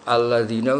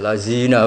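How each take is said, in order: First: The middle consonant is a soft 'dh' sound. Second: The middle consonant is a plain 'z' sound. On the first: The speaker calls it right. "D Z kan biasanya" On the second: The speaker calls it wrong. "Nah ya lazina apa? Zina"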